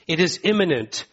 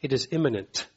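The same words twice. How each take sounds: First: Firm preacher's insistence on "imminent"; emphatic restatement. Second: Said in the usual way. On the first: Real, not acted. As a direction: lean into "imminent" the second time. Repeated phrase, second take emphatic.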